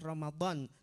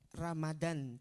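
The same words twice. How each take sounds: First: The d is an emphatic Arabic dad sound. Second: The d is a plain Indonesian d sound. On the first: The word means burning away or erasing sins. The speaker calls it right. "Tapi ucapkanlah Ramadan karena artinya beda" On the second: The word would carry a different meaning. The speaker calls it wrong. "Jangan mengucapkannya Ramadan, jangan"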